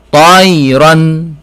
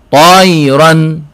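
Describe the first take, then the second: Both takes have the same delivery.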